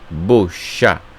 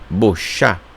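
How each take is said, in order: First: The first vowel sounds like O. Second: The same.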